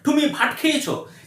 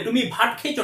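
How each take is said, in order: First: It is said with a foreign learner's accent. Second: It is said with a native Bengali accent.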